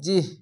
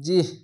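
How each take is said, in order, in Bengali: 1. শব্দটি একটি নিরেট ব্যঞ্জনে শেষ হয়। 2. শব্দটি একটি নিরেট ব্যঞ্জনে শেষ হয়।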